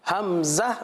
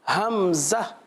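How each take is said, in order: First: The word begins with an h sound. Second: The word begins with an h sound.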